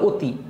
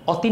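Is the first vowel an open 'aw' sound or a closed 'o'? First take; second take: closed o; open aw. First: The first vowel is a closed 'o' sound. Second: The first vowel is an open 'aw' sound. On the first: "অ কে অনেক সময় ওর মতন উচ্চারণ করো" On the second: "অতি না বলে"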